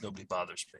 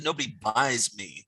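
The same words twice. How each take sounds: First: "bothers" in two syllables, said softly; softer quote with "bothers" in full; corrected slogan. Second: "buys" said in place of "bothers", slowly; misheard slogan. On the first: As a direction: quietly give the real word "bothers". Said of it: "now I realize it's". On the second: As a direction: say "buys" clearly, as the misheard word. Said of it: "I always thought they said". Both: Shown as a demonstration.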